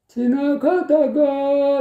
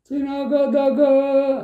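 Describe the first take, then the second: First: The pitch rises on one syllable. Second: The pitch stays level throughout.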